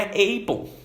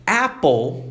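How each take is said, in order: First: Apple said with English short a; right vowel in apple; correct apple. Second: Apple said with a Brazilian open A; mock learner's apple; imitating wrong vowel. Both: Shown as a demonstration. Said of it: "não é apple".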